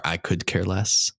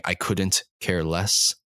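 First: Slow, measured "could care less"; careful quoted phrase. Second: Slow, measured "couldn't care less"; careful quoted phrase. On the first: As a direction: set out "could" slowly, as the alternative. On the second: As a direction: set out "couldn't" slowly and distinctly. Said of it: "there's when people say". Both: Shown as a demonstration. Contrasting two common sayings, slow and deliberate.

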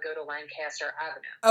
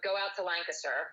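First: LANCASTER as LAN-CAS-ter, full CAS; street-name pronunciation. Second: LANCASTER as LANK-uh-ster, weak middle; town-name pronunciation. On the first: Friend directing to your shop, clearly voiced LAN-CAS-ter. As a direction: open up the second syllable of LANCASTER. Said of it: "if I had to go to your shop". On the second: Friend explaining the town name, quick LANK-uh-ster. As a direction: swallow the middle vowel of LANCASTER. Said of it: "I felt like Lancaster". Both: Shown as a demonstration.

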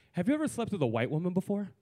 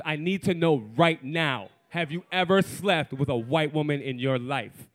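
First: Deadpan, matter-of-fact question; straight-faced question. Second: Insistent demand. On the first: Woman stopping him mid-hookup, straight-faced blunt question. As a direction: ask it straight, with no cushioning. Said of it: "straight face, no chaser, she goes". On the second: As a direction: press for an answer, weighting each key word. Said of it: "She goes". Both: Retold or imitated.

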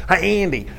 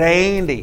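First: Lightly imitated Arkansas twang; attempted Arkansas accent. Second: Said in the usual way. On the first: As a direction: try a weird Arkansas accent. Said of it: "try and do the weird accent". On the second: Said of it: "I'm gonna try and do the weird accent".

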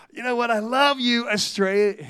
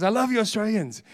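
First: Put-on accidental American accent on the estate agent; a brief slide into an American accent; slipped American accent. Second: Said in the usual way. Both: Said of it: "I nearly went American then".

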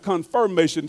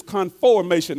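First: "confirmation" said with the I sound, kon-fur-MAY-shun, as the contrast; the I version. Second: "conformation" said with a full open O, kon-for-MAY-shun; clear O in conformation. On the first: Preacher contrasting the wrong word for listeners, plain I vowel. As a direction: give "confirmation" its I vowel, set against the other word. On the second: Preacher spelling out the word for the congregation, careful clear O. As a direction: stress the O sound in "conformation" so it can't be heard as an I.

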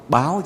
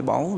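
First: "báo" with a clear open "ao" ending; "báo" said higher, as a correction; correct pronunciation. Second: "báu" with the short "au" ending; "báu", closed "au" in place of "ao"; mispronunciation shown. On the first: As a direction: stress "báo", ending in "ao" rather than "au". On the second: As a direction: say "báu" as the mistaken form of "báo". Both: Shown as a demonstration. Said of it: "báo chứ không phải báu".

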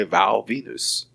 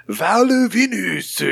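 First: Said in the usual way. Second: Put-on "Val Venus" high and drawn out in a caricatured Asian accent; slow, high parody Asian accent on "Val Venus"; mock Asian accent. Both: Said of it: "How would an Asian person say Val?".

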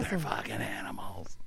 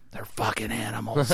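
First: Hushed, imitated magician's whisper; mock-wounded whisper; retold whisper. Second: Softer, mock-wounded magician; imitated hurt muttering; near tears. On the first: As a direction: whisper it as if crushed. Repeats the beaten magician's line. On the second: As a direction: complain like a beaten performer. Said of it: "looks like he's in tears".

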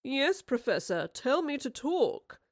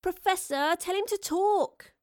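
First: Slow, high-pitched mocking baby voice; drawn-out babyish teasing. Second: High, drawn-out, loud plea; a girl's high-pitched begging; pleading. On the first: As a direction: mimic her plea like a baby. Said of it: "said in a babyish tone". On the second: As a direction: whine to a grown-up for help. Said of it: "Astrid pleaded". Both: A narrator's reading.

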